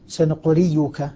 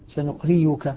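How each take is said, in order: First: The middle consonant is a y sound. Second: The same.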